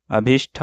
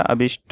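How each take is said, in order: First: अभिष्ठ ending in "shth"; aspirated ending. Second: अभिष्ट ending in plain "sht"; no puff on the t of अभिष्ट; unaspirated ending. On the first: Teacher showing the mistake, अभिष्ठ with aspirated th. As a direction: puff the th of अभिष्ठ. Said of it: "अभिष्ठ नहीं होता". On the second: Teacher correcting the word, अभिष्ट with plain t. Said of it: "अभिष्ट होता है". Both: Shown as a demonstration.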